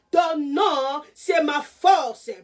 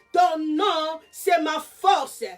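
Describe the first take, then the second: The two takes are said the same way.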